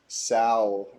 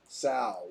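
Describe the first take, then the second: First: The vowel sounds like the one in blow. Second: The vowel sounds like the one in wow. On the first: "rhymes with blow" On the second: "Rhymes with wow"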